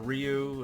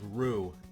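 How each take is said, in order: First: The name sounds like 'rye-you'. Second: The name sounds like 'roo'. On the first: The speaker calls it wrong. "I still didn't get it right" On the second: The speaker calls it right. "I think it's like Rue"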